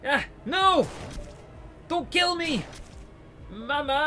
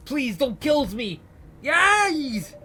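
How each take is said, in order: First: High, shouted pleas for mercy; a prisoner screaming as he's shot at; terrified screams. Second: High, slow, screaming plea; a prisoner begging not to be shot; terrified scream. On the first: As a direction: scream for your mother. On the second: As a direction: shriek for your life. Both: Acted.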